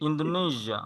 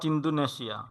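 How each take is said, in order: First: The ending is pronounced with a 'zh' sound. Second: The ending is pronounced with a 'sh' sound. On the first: This is the English way of saying it. The speaker calls it right. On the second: This is the Bengali way of saying it. The speaker calls it wrong.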